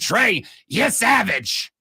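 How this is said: It is said in a put-on sportscaster impression.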